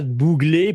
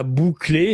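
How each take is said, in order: First: "Bouglet" said with a clear G; spell-it-out care on "Bouglet", G in the middle; clear pronunciation. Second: "Bouclé" with a hard K sound; mistaken pronunciation. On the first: Host correcting the chat on the surname, clearly pronounced. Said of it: "je répète pour le chat". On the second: Host showing the chat the mistaken surname, pronounced with K. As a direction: stress the wrong name "Bouclé", K instead of G. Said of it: "pas Bouclé". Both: Shown as a demonstration.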